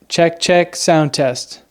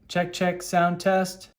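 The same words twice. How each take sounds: First: The voice sounds close, with little room echo. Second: The voice sounds distant, with echo from the room.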